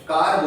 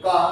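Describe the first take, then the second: First: कार with the final r clearly sounded; American, with r. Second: का with a long aa and no r sound at the end; British, no r. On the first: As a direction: say कार and roll into a clear r at the end, American style. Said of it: "आर को sound दे रहा है friends". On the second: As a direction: say का, dropping the r entirely, British style. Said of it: "इसमें आर को sound नहीं देते हैं". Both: Shown as a demonstration.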